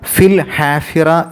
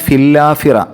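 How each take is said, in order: First: The h is clearly pronounced after 'fil'. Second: The h is dropped, running into 'lla'. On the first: The speaker calls it right. "വ്യക്തമായിട്ട്" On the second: The speaker calls it wrong. "വേഗതയിൽ പാരായണം ചെയ്യുമ്പോൾ"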